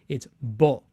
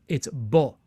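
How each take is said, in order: No difference in how they are said.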